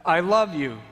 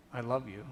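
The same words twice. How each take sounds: First: Loud, higher I love you, falling at the end; impassioned cry. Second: Soft, falling I love you; quiet tender words. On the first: Jesus to the onlooker at the last spike, loud cry. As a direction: cry it out in pain. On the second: Jesus to the onlooker in the quiet, soft. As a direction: say it gently, one last time. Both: Acted.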